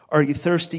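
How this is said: It sounds demanding and heavy-handed.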